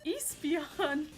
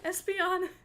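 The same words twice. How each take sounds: First: The word begins with a long 'ee' sound. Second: The word begins with an 'ess' sound.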